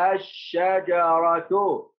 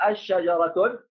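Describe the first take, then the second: First: Very slow الشجرة as "ash-shajaratu", ending in plain u; correct form without tanween. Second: الشجرة ending in "-tun", an n added after the article form; wrong form with tanween. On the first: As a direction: draw out الشجرة with doubled sh and no final n. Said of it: "لا يا أستاذ". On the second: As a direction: put a nunation n on the end of الشجرة. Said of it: "ما يصلح". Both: Shown as a demonstration.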